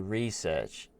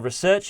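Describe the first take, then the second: First: It is said the way some Americans say it. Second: It is said the speaker's own non-American way. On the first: The speaker calls it wrong. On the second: The speaker calls it right.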